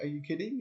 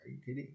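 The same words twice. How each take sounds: First: Mock disbelief, rising on "kidding"; disbelieving people. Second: Mock mom, flat "kidding"; mom's calm reply. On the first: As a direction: play the stunned onlookers asking "Are you kidding?". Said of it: "People are like". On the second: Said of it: "she's like".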